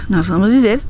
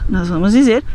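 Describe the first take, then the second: The two takes are said the same way.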